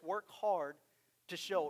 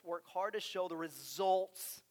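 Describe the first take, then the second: First: Said in the usual way. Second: "work hard to show the results" drawn out slowly, every word weighted; slow verse reading, stressing "work hard to show the results"; slow emphasis. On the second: Shown as a demonstration. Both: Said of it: "it really describes this".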